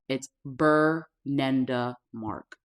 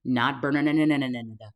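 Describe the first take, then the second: First: Bernenda said slowly as per-NEN-da, each syllable clean; slow, firm Bernenda; correct name, slowly. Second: Bernenda garbled into a tumbling ne-ne-ne mess; wrong way of saying it. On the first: Correcting viewers on her name, slow and firm. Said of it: "That is my name". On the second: Showing viewers how people mangle her name, garbled. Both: Shown as a demonstration.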